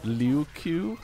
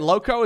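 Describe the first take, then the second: First: The vowels sound like lyoo and koo. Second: The vowels sound like low and ko. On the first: The speaker calls it right. "It's actually Liu-Ku" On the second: The speaker calls it wrong. "Lowko is not actually pronounced like this"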